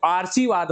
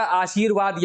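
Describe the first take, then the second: First: आशीर्वाद said with the r before shi, as aar-shi-vaad; wrong reading आशीर्वाद, aar-shee-vaad; wrong spelling read out. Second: आशीर्वाद said aa-shir-vaad, r after shi; correct pronunciation. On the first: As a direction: read आशीर्वाद as aarshivaad, r moved up front. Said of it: "जो कि गलत है". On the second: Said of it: "यही सही है". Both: Shown as a demonstration.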